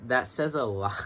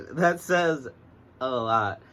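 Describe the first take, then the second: First: Said in the usual way. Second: Emphatic loud repeat. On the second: Shown as a demonstration. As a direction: say it again with big emphasis, much louder.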